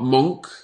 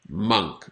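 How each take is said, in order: First: The vowel is an 'o' sound. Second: The vowel is an 'uh' sound. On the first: The speaker calls it wrong. "Not monk" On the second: The speaker calls it right. "the pronunciation is monk. Almost like a U sound"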